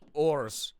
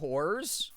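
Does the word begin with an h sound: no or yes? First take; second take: no; yes. First: The word starts without an h sound. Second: The word starts with an h sound. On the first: The speaker calls it right. "I gotta say it like ors" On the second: The speaker calls it wrong. "I gotta say that not like that"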